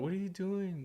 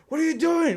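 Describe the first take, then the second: First: It is said quietly and calmly. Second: It is yelled loudly and angrily.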